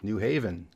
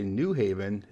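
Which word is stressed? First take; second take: Haven; New. First: The stress falls on the word Haven. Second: The stress falls on the word New.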